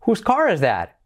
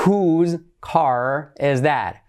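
First: Said in the usual way. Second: Very slow, separated words. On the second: Shown as a demonstration. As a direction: model the question slowly for learners. Slow model, then natural take. (muy lento, palabra por palabra)

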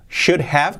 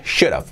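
First: "Should have" as two words, H sounded; full form. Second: "should have" merged into "shudav"; contracted. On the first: Teacher shows it before contraction, "Should have" in full. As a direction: keep "Should have" apart with audible H. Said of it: "como antes". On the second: Teacher shows the contraction, "should have" as "shudav". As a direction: link "should have" without the H. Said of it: "se contrae". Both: Shown as a demonstration.

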